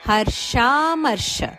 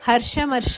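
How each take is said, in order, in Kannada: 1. 'harsh' ನಂತರದ ಸ್ವರ ದೀರ್ಘ. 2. 'harsh' ನಂತರದ ಸ್ವರ ಹ್ರಸ್ವ. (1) "ಹರ್ಷ ದೀರ್ಘ" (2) "ಅಲ್ಲ"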